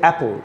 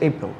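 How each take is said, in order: First: The first vowel is like the 'a' in cat. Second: The first vowel is like the 'e' in bed. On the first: The speaker calls it wrong. "No" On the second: The speaker calls it right. "Actual উচ্চারণ হচ্ছে এপল"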